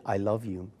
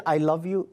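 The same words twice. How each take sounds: First: The echo, softer and lower. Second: Said in the usual way. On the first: Retold or imitated. Mother showing what the echo answers, softer and lower. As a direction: let it come back like a distant echo. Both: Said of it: "Mark, that was your echo".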